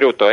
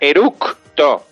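First: No k sound is heard before the t. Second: A k sound is heard before the t. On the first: The speaker calls it wrong. "No se dice eruto" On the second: The speaker calls it right. "Se dice con C de casa"

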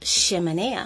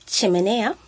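First: It begins with an sh sound. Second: It begins with a ch sound. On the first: "he oído otras veces pronunciado como chimenea" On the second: "vamos a empezar con la CH, que sería el che"

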